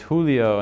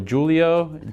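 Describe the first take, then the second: First: The name is said with Spanish sounds. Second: The name is said with English-style sounds. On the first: The owner of the name is correcting it. The speaker calls it right. "And I was like, it's Julio" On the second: Someone unfamiliar with the name is saying it. The speaker calls it wrong. "The teachers could never pronounce it. So they would always go"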